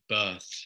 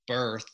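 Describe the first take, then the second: First: It has a British accent with no R sound. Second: It has an American accent with the R pronounced.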